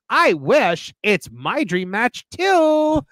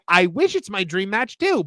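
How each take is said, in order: First: Slow, with a pause before too; intended reading. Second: "dream match too" run together in one phrase; as written. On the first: Correcting the CEO's message, reads the intended slow version. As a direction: read it as dream match, then "too" added separately. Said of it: "'cause you're trying to say". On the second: Showing the CEO's message as literally worded, run together. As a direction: read it the way it was actually written. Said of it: "But instead you said". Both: Shown as a demonstration.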